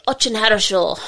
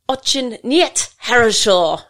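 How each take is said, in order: First: Higher, falsely cheery imitation; fake enthusiasm. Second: Loud, higher, slow mock fury; furious Australian voice. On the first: Russian trainee fobbing off his instructor after a poor effort, fake enthusiasm. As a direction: imitate him with a big fake smile. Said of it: "did his big fake smile". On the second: Instructor telling off a slack Russian trainee in class, mock furious Australian. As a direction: hammer out each word in retold indignation. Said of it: "in my best furious Australian voice".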